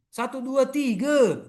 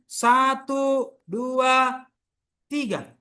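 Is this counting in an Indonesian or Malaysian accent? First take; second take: Malaysian; Indonesian. First: It is said in a Malaysian accent. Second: It is said in an Indonesian accent. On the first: "Orang Malaysia mengatakan apa?" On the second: "Ya orang Indonesia"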